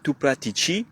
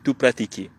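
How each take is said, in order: First: The consonant before the final i is a soft ch. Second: The consonant before the final i is a hard k. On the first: The speaker calls it wrong. "On dit pas tu pratici" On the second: The speaker calls it right. "mais tu pratichi"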